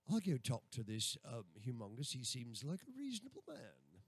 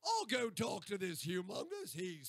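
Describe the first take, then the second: First: Lower-pitched put-on London accent. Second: Put-on Australian accent, pitched up at first; exaggerated Australian accent demo. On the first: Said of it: "if I was from London". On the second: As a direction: demonstrate a broad Aussie accent. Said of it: "and then we get Australian". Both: Shown as a demonstration.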